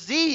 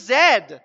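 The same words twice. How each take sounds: First: The letter is said as 'zee'. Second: The letter is said as 'zed'.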